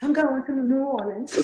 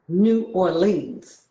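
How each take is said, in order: First: High, laughing try at a Cajun drawl; giggly Cajun attempt at "I'm going to New Orleans". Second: "New Orleans" said very slowly with a full "Or-leans"; drawn-out New Yorker "New Orleans"; New York way of saying it. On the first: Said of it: "with that Cajun drawl". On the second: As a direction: stretch out "New Orleans" the New York way, every syllable. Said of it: "we say things like". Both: Shown as a demonstration.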